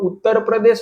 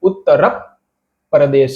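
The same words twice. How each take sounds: First: The p is short, said only once. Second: The p is held long with lips pressed shut. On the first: The speaker calls it wrong. "આને બોલવાનું ઉત્તર પ્રદેશ નથી" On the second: The speaker calls it right. "પ આપણી આપણી જે હોઠ છે એ ચોટીને ઉભો રહી જશે"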